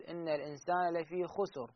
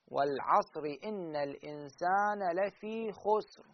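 First: خسر read with a damma on the sin, as xusur, and softer; wrong reading. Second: Slow recitation, خسر with a silent sin, as xusr; correct reading. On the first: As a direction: show the mistake by giving the sin in خسر a vowel. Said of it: "خسر غلط". (خسر بضم السين خطأ) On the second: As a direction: read it slowly and keep the sin in خسر silent. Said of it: "فنقرأها هكذا". (خسر بسكون السين وببطء) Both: Shown as a demonstration.

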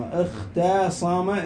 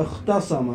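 First: اختصم drawn out slowly, "ikh-taa-sama"; very slow, sounded-out اختصم; broken-down demonstration. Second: Said in the usual way. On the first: Shown as a demonstration. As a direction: stretch the taa in اختصم to show its vowel. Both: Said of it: "تقول اخت".

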